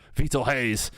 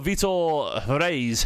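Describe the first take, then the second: First: The surname begins with an H sound. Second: The surname begins with an R sound.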